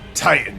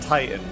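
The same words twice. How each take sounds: First: The word is shouted with lots of energy. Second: The word is said flatly with little energy. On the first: The speaker calls it right. "He needed more energy than like" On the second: The speaker calls it wrong. "Not Titan"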